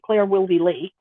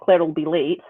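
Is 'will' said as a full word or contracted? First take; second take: full; contracted. First: The word 'will' is said in full. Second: The word 'will' is contracted onto 'Claire'. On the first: "if you say" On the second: "instead of"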